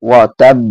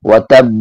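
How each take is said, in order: No difference in how they are said.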